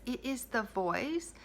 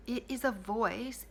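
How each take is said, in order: First: "the" lifted and lingered on, slow; stress on the. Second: Said in the usual way. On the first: Shown as a demonstration. Coach to listener, stressing "the" slowly. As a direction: lean into "the" to single out this voice.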